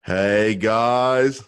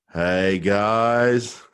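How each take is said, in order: First: Put-on Australian accent, the guys stretched up and called out; cheery Australian woman greeting the hosts, Australian accent; female Australian impression. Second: Put-on lightly done Aussie bloke's greeting in Australian accent; a hint of an Australian man saying hi, Australian accent; Australian male impression. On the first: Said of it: "let me do a female Australian impression". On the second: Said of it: "That was an Australian male impression".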